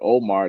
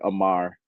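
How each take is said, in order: First: The name begins with an 'oh' vowel. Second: The name begins with an 'ah' vowel. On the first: This is not how people in the region say it. "they don't say Omar" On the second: This is how people in the region say it. "in Jamaica, ... they say Amar"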